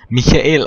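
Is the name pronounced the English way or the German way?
German. The name is pronounced the German way.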